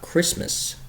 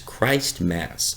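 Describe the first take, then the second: First: It is said as one blended word. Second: Christ and Mass are said as separate words. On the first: The speaker calls it wrong. "everybody that I've heard is mispronouncing this holiday. It's not" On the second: The speaker calls it right. "it's Christ Mass"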